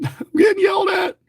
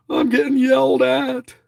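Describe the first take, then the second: First: "I'm getting yelled at" squealed very high through a laugh; giddy high laugh at being scolded; laughing yelp. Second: Said in the usual way. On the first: Real, not acted. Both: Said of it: "She's yelling at me".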